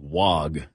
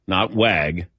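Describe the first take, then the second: First: Wag said the first way, lower and softer; pronunciation contrast. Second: Wag said the other way; pronunciation contrast. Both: Shown as a demonstration.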